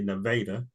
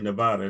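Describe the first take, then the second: First: Nevada is said the local Iowa way. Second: Nevada is said the usual way. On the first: This is how the town's residents say its name. The speaker calls it right. "they say Nevada" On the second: This is how outsiders say the town's name. The speaker calls it wrong. "they don't say Nevada"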